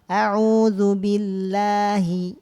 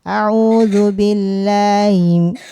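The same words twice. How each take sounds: First: The H in billahi is opened and clear. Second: The H in billahi is merged and swallowed. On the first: The speaker calls it right. "Caranya kita dibuka" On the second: The speaker calls it wrong. "Jangan ... H-nya jelebur"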